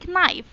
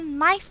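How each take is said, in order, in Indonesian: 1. Kata ini dimulai dengan bunyi k. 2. Kata ini dimulai dengan bunyi n. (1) "bukan knife" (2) "Dibacanya knife ya"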